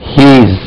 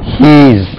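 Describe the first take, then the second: First: One short syllable, he's. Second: The same.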